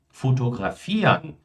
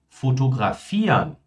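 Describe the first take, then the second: No difference in how they are said.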